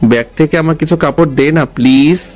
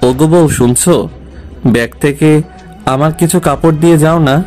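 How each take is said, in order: First: The request is said in a plain, casual tone. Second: The request is said in a sweet, affectionate tone.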